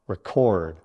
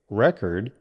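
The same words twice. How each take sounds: First: The stress is on the second syllable. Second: The stress is on the first syllable. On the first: It names an action, a verb. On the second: It names a thing, a noun. "a noun"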